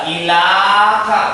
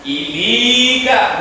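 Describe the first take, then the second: First: The middle vowel is a plain 'a' sound. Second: The middle vowel is a plain 'i' sound. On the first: "enggak ilaka, bukan" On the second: "Ilika bukan"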